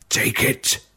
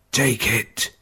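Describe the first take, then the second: First: Unvoiced, barely audible dying words; breathless whisper. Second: Faint but voiced, insisting with the word Take; weak voiced plea. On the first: Dying father offers ring. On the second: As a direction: press the word Take weakly. Dying father insists on ring. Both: A narrator's reading.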